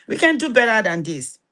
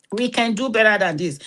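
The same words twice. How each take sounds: First: "can" lifted and leaned on, the rest falling away; stress on can. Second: "better" hit firmest, with "can" left light; stress on better. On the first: Preacher urging the church, stress on "can". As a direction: press hard on "can" to insist it is possible. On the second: Preacher pressing the congregation, stress on "better". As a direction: lean into "better" as a firm call. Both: Real, not acted. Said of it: "repeated with new stress".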